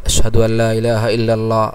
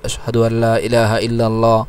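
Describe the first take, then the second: Both takes have the same delivery.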